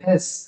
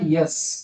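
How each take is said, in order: First: It begins directly with a plain vowel. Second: It begins with a y sound before the vowel. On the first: The speaker calls it right. "मी प्रत्येक ठिकाणी एडक्याचा ए काढतोय" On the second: The speaker calls it wrong. "This is not यस"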